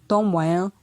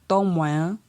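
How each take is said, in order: The two takes are said the same way.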